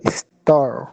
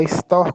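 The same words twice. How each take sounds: First: "store" with a retroflex caipira final R. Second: "store" com R final aspirado; R normal em store. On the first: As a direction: curl the tongue back on the R of "store". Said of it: "fala com R do caipira". ("store" com o R puxado do caipira) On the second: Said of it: "falar store com R normal". ("store" com o R final aspirado, sem retroflexão) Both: Shown as a demonstration.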